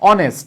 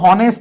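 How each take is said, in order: First: The word begins with a vowel sound. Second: The word begins with an h sound. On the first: The speaker calls it right. "আমরা কি বলি অনেস্ট" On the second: The speaker calls it wrong. "আমরা কিন্তু হনেস্ট বলি না"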